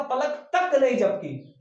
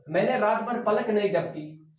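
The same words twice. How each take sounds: First: तक held slow and firm, raised a little and louder; teacher slowly leans hard on तक to show emphasis; stress on तक. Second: Said in the usual way. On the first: Shown as a demonstration. Teacher showing students the stress on तक, slow and firm. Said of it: "मैंने विशेष रूप से जोर दिया इस पलक पर". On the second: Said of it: "अगर मैं ऐसे लिखूं तो भी कोई फर्क नहीं पड़ेगा".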